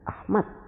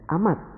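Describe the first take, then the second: First: The final d sound is slightly altered. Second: The final d sound is heavily altered. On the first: "mereka menyebut dengan Ahmad" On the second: "yang lama-kelamaan menjadi Ahmad"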